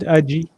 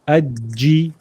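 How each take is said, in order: First: The j sound is short and single. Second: The j sound is doubled and held. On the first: The speaker calls it wrong. "not Aji" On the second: The speaker calls it right.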